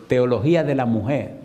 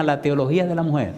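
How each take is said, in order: First: Clarifying repeat. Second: Said in the usual way. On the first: Retold or imitated. Preacher repeats the term for a puzzled husband, deliberate and clear. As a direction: say "Teología de la mujer" deliberately, word by word.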